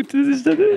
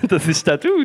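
First: Excited. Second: Said in the usual way. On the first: Real, not acted. Repeated, rising excitedly.

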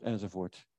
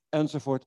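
First: "enzovoort" lower and softer, trailing away; fading out. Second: Said in the usual way. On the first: Shown as a demonstration. Preacher trailing off the list, fading softly. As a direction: let "enzovoort" fade to nothing.

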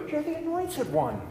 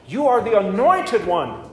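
First: Much higher, softer awed whisper of Peter; a soft, high Peter in awe; Peter's awed voice. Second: Said in the usual way. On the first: Acted. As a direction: breathe it as a stunned disciple. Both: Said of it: "is said by Peter".

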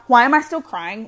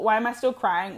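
First: Louder, pushed-out frustrated cry of why; venting at herself, half-yelling the question; exasperated outburst. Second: Said in the usual way. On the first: Retold or imitated. To herself after the breakup, a louder exasperated why. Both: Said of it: "I kept being like".

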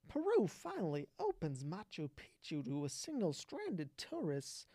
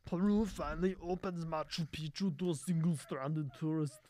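First: Lightly done Walken with odd emphasis, stress landing on the wrong syllables; choppy Walken cadence on "Peru finally opens Machu Picchu"; Christopher Walken impression. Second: A hint of an Austrian Schwarzenegger accent on "Peru finally opens Machu Picchu"; Arnold impression. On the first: Streamer reading a news headline as Walken, odd stress. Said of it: "Christopher Walken, whenever he talks, puts the emphasis on the wrong syl-, syllable".

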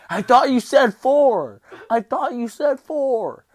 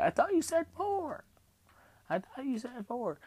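First: Very high, drawn-out comic scream. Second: Tiny, very high squeak; little voice. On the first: Patient screaming at staff over extra staples, retold as a full scream. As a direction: scream it in outraged protest, stretching it out. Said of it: "I'm screaming at him". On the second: Patient retelling the protest over extra staples, in a little squeaky voice. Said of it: "in my little voice". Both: Retold or imitated.

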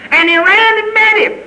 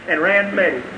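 First: Very high, ringing preaching; fervent, high-pitched proclamation; exultant cry. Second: Soft drop after a peak; quiet, understated finish; hushed wonder. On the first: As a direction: cry it out at the peak of the story. Climax of the father's welcome. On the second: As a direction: let it fall soft, almost an aside. Drops down after the climax. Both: Real, not acted.

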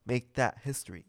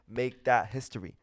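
The two takes are said the same way.

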